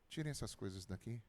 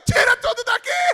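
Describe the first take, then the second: First: It is said calmly and flatly. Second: It is said angrily and forcefully.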